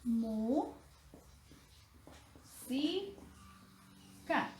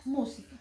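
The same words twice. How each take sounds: First: "Mu, si, ca" split into separate syllables with long pauses. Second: Said in the usual way. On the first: Shown as a demonstration. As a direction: say "Mu" and "si" rising, pause, then close on "ca". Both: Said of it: "Vamos a descomponerlas en sílabas".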